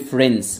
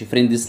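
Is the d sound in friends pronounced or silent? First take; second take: silent; pronounced. First: The d sound is dropped before the s. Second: The d sound is clearly pronounced before the s. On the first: The speaker calls it right. "بتخلي الدي سايلنت في الأمريكان أكسنت" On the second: The speaker calls it wrong. "مش فريندز"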